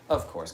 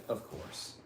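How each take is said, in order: First: Said in the usual way. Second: Hushed voiceless whisper; whispered aside. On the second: Acted. Streamer whispering a knowing aside to chat. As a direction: mutter it under your breath.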